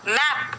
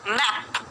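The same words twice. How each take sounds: First: The vowel is an open ae sound. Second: The vowel is an open ae sound.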